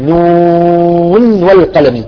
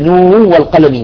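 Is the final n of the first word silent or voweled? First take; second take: silent; voweled. First: The final n stays silent without a vowel. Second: The final n carries a vowel into the next word. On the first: The speaker calls it right. "نقول نون والقلم وصلا ووقفا" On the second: The speaker calls it wrong. "ما نقول نون والقلم، لا"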